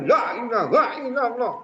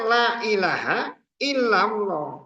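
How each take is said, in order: First: It is said in a raging, agitated way. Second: It is said in a calm, composed way. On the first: The speaker calls it wrong. "kayak ngamuk" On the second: The speaker calls it right.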